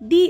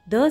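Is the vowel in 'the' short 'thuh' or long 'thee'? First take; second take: thee; thuh. First: The word is said with a long 'ee' vowel. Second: The word is said with a short 'uh' vowel. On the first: It comes before a noun starting with a vowel sound. "अर्थ के लिए मैंने बोला दी अर्थ" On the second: It comes before a noun starting with a consonant sound. "मैंने बोला द सन"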